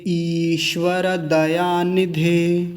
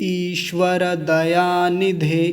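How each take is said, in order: No difference in how they are said.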